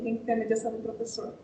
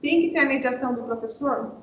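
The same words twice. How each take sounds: First: Said in the usual way. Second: "Tem que ter a mediação do professor" put as a question; rhetorical question. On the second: Shown as a demonstration. Teacher quizzing teachers on mediation, rhetorical question on "professor". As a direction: ask "mediação do professor" expecting a yes. Asks, then answers own question.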